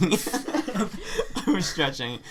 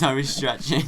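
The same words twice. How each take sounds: First: Slow words through laughter; laughing. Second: Said in the usual way. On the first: Real, not acted. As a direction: laugh it out slowly. Repeats it, laughing hard.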